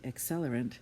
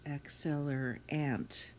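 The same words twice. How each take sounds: First: The final syllable is said with a reduced vowel. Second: The final syllable is said with a clear vowel. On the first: The spelling of the ending is unclear. "if you just say accelerant, you're not sure if you're saying an A N T or an E N T" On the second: It helps you spell the ending. "you're going to think to spell accelerant"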